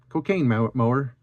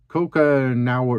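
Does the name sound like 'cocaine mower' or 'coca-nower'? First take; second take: cocaine mower; coca-nower. First: The name sounds like 'cocaine mower'. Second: The name sounds like 'coca-nower'. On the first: "it's Cocaine Mower for me" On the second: "I think I said it right that that time"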